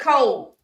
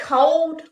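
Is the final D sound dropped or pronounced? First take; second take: dropped; pronounced. First: The word ends without a D sound. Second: The word ends with a clear D sound. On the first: The speaker calls it right. "We say it's cold" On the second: The speaker calls it wrong. "we don't say cold with a D"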